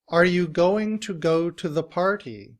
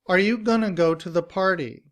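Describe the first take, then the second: First: Going to is said as two full words. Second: Going to is run together as gonna. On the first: "We have the citation form for the sentence" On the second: "we pronounce those words together as gonna"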